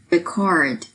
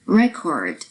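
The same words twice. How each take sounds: First: ReCORD, the verb; "Record" as ri-CORD, falling; second-syllable stress. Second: RECord, the noun; "Record" as REK-ord; first-syllable stress. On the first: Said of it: "放在第二个音节的". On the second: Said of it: "重音音节是在第一个音节". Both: Shown as a demonstration.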